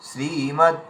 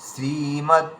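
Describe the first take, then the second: No difference in how they are said.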